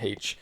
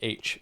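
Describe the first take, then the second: First: The letter name begins with an h sound. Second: The letter name begins with a vowel sound. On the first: The speaker calls it right. "I say the H in H" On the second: The speaker calls it wrong. "Even some people in Britain don't do it. They say H"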